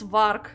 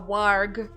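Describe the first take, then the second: First: It is said with a Russian pronunciation. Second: It is said with an English pronunciation. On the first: "In Russian, it's easy, it's varg" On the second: "I don't really know how you pronounce it correctly"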